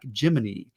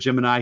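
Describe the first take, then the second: First: The word ends with an 'ee' sound. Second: The word ends with an 'eye' sound.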